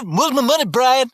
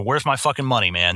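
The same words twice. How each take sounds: First: High, sweet, overly polite ask; sugar-coat the demand, pitched up. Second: Gruff, blunt demand for money; tough collector. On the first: Collector showing the customer-service way, high and polite. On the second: Collector showing the rough way, blunt demand. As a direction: lean on him like a debt collector. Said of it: "that's kind of the way you're supposed to act". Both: Shown as a demonstration.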